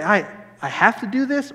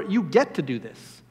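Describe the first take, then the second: First: "have" stressed as a burden; mildly reluctant, weight on "have"; grudging HAVE to. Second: "get" stressed, falling at the end; assured correction, weight on "get"; privileged GET to. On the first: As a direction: say "have to" like a chore. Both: Acted. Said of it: "you can either look and say".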